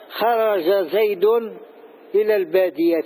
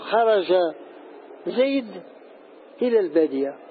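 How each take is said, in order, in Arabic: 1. كل كلمة تحتفظ بحركتها القصيرة الأخيرة. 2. تقف الكلمات دون حركاتها القصيرة الأخيرة. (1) "العرب لم ينطقوا بهذا" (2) "يقفون على المتحرك"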